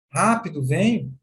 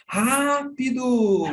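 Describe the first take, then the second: First: Said in the usual way. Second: Rápido high and slow, long stressed first syllable; urgent drawn-out rápido. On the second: Shown as a demonstration. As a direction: stretch Rápido out, pitched up, insistent. (Rápido esticado e agudo, bem enfático) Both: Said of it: "Teve diferença".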